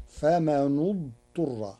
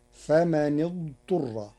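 First: Famanu-dturra, u on the nun; damma on nun. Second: Said in the usual way. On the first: Shown as a demonstration. Teacher demonstrating Warsh's faman idturra, nun with damma. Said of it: "بضم النون المكسورة".

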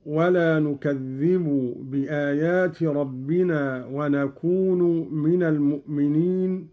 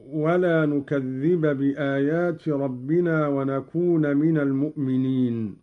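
First: "نكذب" as nukadhdhibu and "ونكون" as wanakunu; nominative u endings. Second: Said in the usual way. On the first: Shown as a demonstration. Teacher demonstrating Qalun, "نكذب" and "ونكون" ending in -u. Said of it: "بالرفع".

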